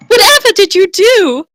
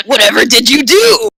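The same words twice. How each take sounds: First: Squeaky high, dainty lady voice; high girly voice. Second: Lightly voiced muscular lady, less squeaky; brawny woman's voice. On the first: Acted. Cow woman asks the hero, squeaky and dainty. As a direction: chirp it like a delicate maiden. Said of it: "Her voice had a brawny, muscular tone". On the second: Tauren woman gasps at the mustached hero, lightly brawny. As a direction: redo it tougher, still a bit high. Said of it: "muscular tone to it".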